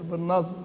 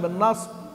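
First: The ṣād is blended toward a voiced z sound. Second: The ṣād is pronounced pure, with no z colouring. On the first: The speaker calls it wrong. "الصاد الساكنه غالبا مشمه... الواحد ما يكون مكسل كده" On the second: The speaker calls it right. "لا بدون إشمام"

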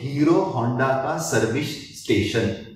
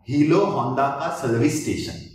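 First: The r sounds are pronounced as clear r. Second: The r sounds are pronounced as l instead. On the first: This is the ordinary way of saying it. "जैसे अपन बोलते हैं" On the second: The speaker has a tongue movement problem. "तो वो बंदा कैसे बोलेगा?"

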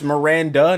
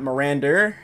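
First: The name ends cleanly with no added sound. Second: An extra sound is added after the name. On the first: The speaker calls it right. "It's Miranda" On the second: The speaker calls it wrong. "keep adding the after Miranda"

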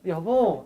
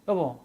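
First: The word is said in a sweet, cute way. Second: The word is said flatly, followed by a pause. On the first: The request is friendly and affectionate. "귀엽지" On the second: The request is a scolding warning. "어토만 조금 바뀌어도, 여기 여보 쉰다?"

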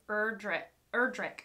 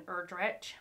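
First: The name ends with a hard k sound. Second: The name ends with a soft ch sound. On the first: The speaker calls it right. "It's the hard C at the end" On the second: The speaker calls it wrong. "rather than Erdrich"

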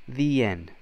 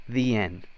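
Both takes have the same delivery.

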